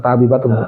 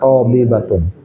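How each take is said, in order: First: The first syllable has a plain t and open a. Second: The first syllable has an emphatic t and o-like vowel. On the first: It sounds like the Indonesian word. The speaker calls it wrong. "Bukan tabi batun" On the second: It is the proper Arabic word. The speaker calls it right.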